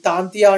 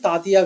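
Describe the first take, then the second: First: An 'n' sound comes before the middle 't'. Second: No 'n' sound comes before the middle 't'. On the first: The speaker calls it right. "తాంతియా అండి" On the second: The speaker calls it wrong. "తాతియా కాదు"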